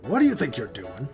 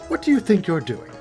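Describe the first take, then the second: First: It is said in the speaker's natural voice. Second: It is said in an imitated character's voice.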